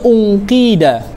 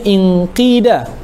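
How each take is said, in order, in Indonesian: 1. Kata itu diawali dengan vokal 'u'. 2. Kata itu diawali dengan vokal 'i'. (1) "kalau mula kena baca unqida" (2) "tak boleh baca inqida"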